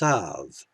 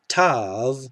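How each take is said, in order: First: The word begins with a th sound. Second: The word begins with a plain t sound. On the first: This is the historical pronunciation without a dagesh. "without a dagesh, would be Thav" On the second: This is the modern Israeli pronunciation. "Tav is always t"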